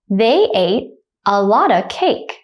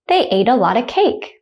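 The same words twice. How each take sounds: First: The sentence is spoken slowly. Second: The sentence is spoken at normal conversational speed. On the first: "The first time I'll say it slowly" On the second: "The second time I'll say it at a normal speed, like a native speaker"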